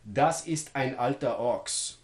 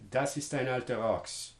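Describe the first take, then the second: First: Glottal stops begin the vowel-initial words. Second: The vowel-initial words link without glottal stops. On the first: "that's what it sounds like more or less with glottal stop onsets" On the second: "If I didn't do that, I might pronounce this"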